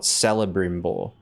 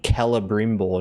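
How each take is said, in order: First: The name begins with a soft S sound. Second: The name begins with a hard K sound. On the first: The speaker calls it wrong. "not Celebrimbor" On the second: The speaker calls it right. "C's are normally pronounced like as a K in Elvish"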